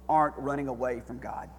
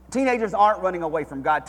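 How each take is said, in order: First: Said in the usual way. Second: Louder, higher restatement; rising pulpit emphasis; emphatic preached repeat. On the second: Shown as a demonstration. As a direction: drive the point home on the repeat.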